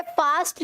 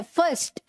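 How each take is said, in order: First: फास्ट with long "aa"; wrong pronunciation. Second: फर्स्ट as short "fust"; correct pronunciation. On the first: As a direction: open फास्ट up to "faast". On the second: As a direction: reduce the vowel in फर्स्ट, no "aa". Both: Shown as a demonstration. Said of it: "फास्ट नहीं है".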